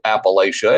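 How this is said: It is said with the Northern pronunciation. The speaker is a Northerner. "but if you call it a, Appalachia, it's okay. I'll just call you a Yankee"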